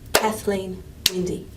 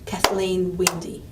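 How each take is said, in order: First: Kathleen is stressed on its first syllable. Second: Kathleen is stressed on its second syllable. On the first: The speaker calls it right. "Kath would suddenly become the strong syllable" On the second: The speaker calls it wrong. "I would not say"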